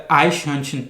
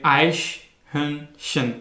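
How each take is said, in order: First: आइशहर्नशन said quickly as one word; quick pronunciation. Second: आइशहर्नशन very slowly, broken into three parts; divided into syllables. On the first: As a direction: run आइशहर्नशन together in one smooth, fast flow. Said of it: "मैं बड़ी तेज़ी से इसको pronounce कर रहा हूँ". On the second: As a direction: split आइशहर्नशन syllable by syllable, with clear pauses. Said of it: "इसको अगर आप डिवाइड करें". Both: Shown as a demonstration.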